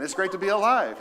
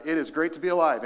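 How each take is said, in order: First: Louder, higher retake. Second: Said in the usual way. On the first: Shown as a demonstration. Pastor repeating the line louder for the congregation. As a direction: raise it up and proclaim it. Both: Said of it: "Let's try that again".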